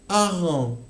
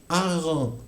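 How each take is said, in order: The two takes are said the same way.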